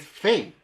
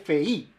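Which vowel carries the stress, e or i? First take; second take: e; i. First: The stress falls on the e sound. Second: The stress falls on the i sound. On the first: The speaker calls it right. "Y es Fei, porque estoy pronunciando el acento en la E" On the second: The speaker calls it wrong. "no se dice Fei, porque ahí estoy cargando el acento en la I"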